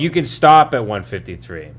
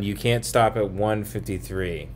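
First: Louder, 'can' said firmly and clearly; emphatic correction. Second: Reads 'can't' as a plain, quiet line; misread line. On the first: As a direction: reread it loudly, leaning on 'can'. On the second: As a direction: says 'You can't stop' evenly, unstressed. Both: Real, not acted. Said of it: "Sorry, I read that wrong".

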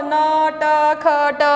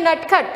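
First: "न, ट, ख, ट" as drawn-out separate sounds; letter by letter. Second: "नटखट" short, as one word; read directly. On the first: Teacher imagines pupils needing time, "न, ट, ख, ट" letter by letter. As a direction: work through "न, ट, ख, ट" one letter at a time. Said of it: "आपको शायद टाइम लगता होगा". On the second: Teacher shows pupils proper reading, "नटखट" directly as one word. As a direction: say "नटखट" straight off, letters joined. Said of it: "पढ़ने के लिए कैसे पढ़ना है". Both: Shown as a demonstration.

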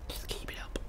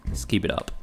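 First: Breathy voiceless whisper of "Just keep it up". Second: Said in the usual way. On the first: Shown as a demonstration. Streamer to a viewer, cheering them on in a whisper. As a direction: drop to a hushed whisper for the viewer. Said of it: "same words, whispered". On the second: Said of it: "repeats it whispered".

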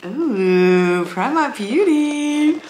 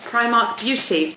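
First: Slow, higher, drawn-out "Primark Beauty"; delighted drawl. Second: Said in the usual way. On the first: Real, not acted. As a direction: savour the name with delight. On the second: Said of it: "I thought we could unbox it together".

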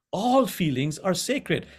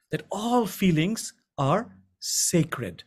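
First: Said in the usual way. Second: Very slow and grave, leaning on all; slow solemn emphasis. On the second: Shown as a demonstration. Teacher impressing a key truth on the class, slow and solemn. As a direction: let each word of that all feelings are sacred land slowly. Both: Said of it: "I repeat".

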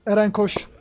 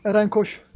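Both takes have the same delivery.

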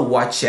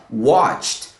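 First: "watched" split into watch-ed; wrong -ed ending. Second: "watched" as one syllable, WATCHT; one-beat "watched" with a t ending; correct -ed as t. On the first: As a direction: mispronounce "watched" with an extra "ed" syllable. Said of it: "A gente não fala". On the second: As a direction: end "watched" on a crisp t, no vowel. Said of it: "a gente fala". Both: Shown as a demonstration.

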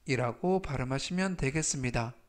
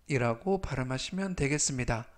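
The two takes are said the same way.

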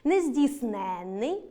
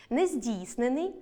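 First: Нездійсненний with stress on ЕН, long double н; stress on the suffix. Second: Нездійснений with stress on ДІЙС, short single н; stress on the root і. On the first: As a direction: slowly stretch нездійснЕННий on the suffix. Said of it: "наголос падає на суфікс «н»". (наголос на суфіксі: нездійснЕнний) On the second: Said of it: "наголос падає на «і»". (наголос на корені: нездІйснений) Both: Shown as a demonstration.

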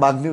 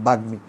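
First: বাগ্মী said as "bagni", n in place of m; common mispronunciation. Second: বাগ্মী said as "bag-mi"; ম pronounced. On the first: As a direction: put an n after the g in বাগ্মী. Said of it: "অনেকে এটার বাগ্মী উচ্চারণ করো". (বাগ্মী-কে "বাগ্নি" উচ্চারণ) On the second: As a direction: sound g, then a clear m in বাগ্মী. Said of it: "আসল উচ্চারণটা কী হবে". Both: Shown as a demonstration.

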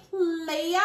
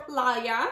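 First: "Playa" said as PLAY-uh; first pronunciation guess. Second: "Playa" said as PLY-uh; alternative pronunciation guess. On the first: Reviewer unsure of company name, "Playa" as PLAY-uh. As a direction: say "Playa" with an AY as in day. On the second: Reviewer offers other company name, "Playa" as PLY-uh. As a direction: say "Playa" with an EYE sound. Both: Shown as a demonstration. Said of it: "Playa or Playa".

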